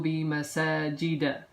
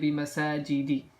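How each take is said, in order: First: The last word ends with an a vowel. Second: The last word ends with an i vowel. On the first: The speaker calls it right. "You would say marartu bi masajida" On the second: The speaker calls it wrong. "You wouldn't say bi masajidi"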